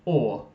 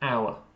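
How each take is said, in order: First: The word sounds like 'or'. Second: The word sounds like 'our', with a glide. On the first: The speaker calls it wrong. "It sounded like you said or" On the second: The speaker calls it right. "the pronunciation is more like our"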